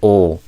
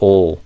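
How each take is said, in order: First: It ends in a dark L sound. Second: The same.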